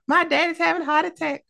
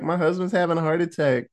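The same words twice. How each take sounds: First: Very high, fast mock panic; put-on high voice, frantic and comic; hammed-up panicked wail. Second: Said in the usual way. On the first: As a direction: squeal it in a silly falsetto. Repeats wife's line in high voice.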